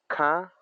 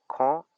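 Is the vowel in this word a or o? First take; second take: a; o. First: The vowel is pronounced as a. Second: The vowel is pronounced as o. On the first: "Ka en Amuri y Salitre" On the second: "se dice ko en Coroma"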